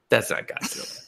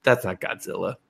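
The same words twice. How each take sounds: First: Hushed, breathy repeat of That's; whispering That's not Godzilla to herself; whispered aside. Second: Said in the usual way. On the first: Retold or imitated. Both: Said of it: "I was just like".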